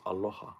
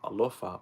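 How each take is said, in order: First: The middle consonant is an h sound. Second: The middle consonant is an f sound. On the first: This is how it is actually said there. The speaker calls it right. "but it's aloha" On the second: This is how the spelling looks. The speaker calls it wrong. "A L O F A looks like alofa"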